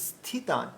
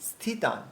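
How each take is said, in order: No difference in how they are said.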